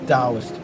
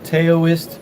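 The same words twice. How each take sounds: First: The word begins with a D sound. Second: The word begins with a T sound. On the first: This is the traditional way. "the traditional way to say it is Taoist. Like the T is D" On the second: This is the common American way. "here in the States, most people say"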